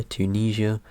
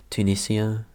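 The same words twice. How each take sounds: First: Tunisia said as too-NEE-zhuh, with a zh sound; trying a pronunciation. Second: Tunisia said as too-NIS-ee-uh, with a plain s; trying another pronunciation. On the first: Vlogger unsure how to say the country, tries Tunisia as too-NEE-zhuh. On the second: Vlogger tries the country name again, Tunisia as too-NIS-ee-uh. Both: Shown as a demonstration. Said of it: "How do you actually pronounce that?".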